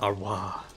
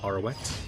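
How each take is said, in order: First: The name ends without any T sound. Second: The name ends with a clear T sound. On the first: "Other way" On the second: "No chance in hell they'd pronounce the T"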